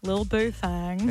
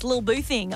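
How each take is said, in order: First: The last word has an 'a' vowel, like 'thang'. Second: The last word has an 'ih' vowel, like 'thing'. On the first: The speaker calls it right. "It's with an A" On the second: The speaker calls it wrong. "No. Say it properly"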